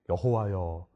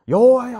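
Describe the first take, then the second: First: It is said calmly and with restraint. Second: It is cried out urgently and with emotion. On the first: A dignified, formal address to God. The speaker calls it wrong. "점잖게" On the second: A child-like cry seeking God with everything. The speaker calls it right. "하면서 하나님을 찾는 것이죠"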